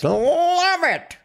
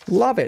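First: It is said in a 1920s jazz voice. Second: It is said in a normal voice.

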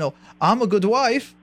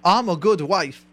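First: It sounds unsure, like a question. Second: It sounds firm, like an exclamation.

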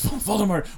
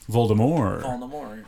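First: The final T sound is pronounced. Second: The final T sound is left off.

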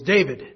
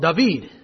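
First: The name is said with the English pronunciation. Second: The name is said with the Hebrew pronunciation. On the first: This is how Americans say the name. "we all know that the fellow who slayed Goliath, that his name was David" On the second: This is how people in Israel say the name. "you go over to Israel and they actually have the nerve to call him David"

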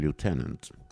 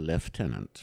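First: It has the American pronunciation. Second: It has the British pronunciation. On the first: "i USA säger man lieutenant" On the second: "i Storbritannien så heter det lieutenant"

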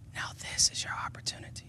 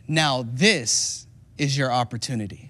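First: It is spoken in a quiet whisper. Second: It is spoken in a loud, raised voice. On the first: The speaker calls it right. "it says that they whisper because Saul was right there" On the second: The speaker calls it wrong. "I'm not doing it justice because I'm raising my voice"

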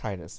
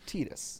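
First: The first syllable sounds like the word 'tide'. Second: The first syllable does not sound like 'tide'. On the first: The speaker calls it wrong. "It's the tides. But that's not how you pronounce it" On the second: The speaker calls it right. "As the good Lord intended, it is Tidus"

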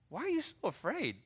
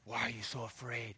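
First: It is said playfully, with a smirk. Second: It is said harshly, in a condemning way.

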